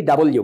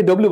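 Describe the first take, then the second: First: ডাবল, then ইউ; W as double U. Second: Said in the usual way. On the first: Shown as a demonstration. Teacher correcting ডব্লিউ to ডাবল ইউ. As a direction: say ডাবল ইউ as two clear words. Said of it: "but it will be ডাবল ইউ". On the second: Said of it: "আমরা আগে এটাকে ডব্লিউ বলতাম".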